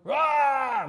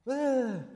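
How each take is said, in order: First: It is a loud, confident shout. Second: It is a weak, unconfident shout.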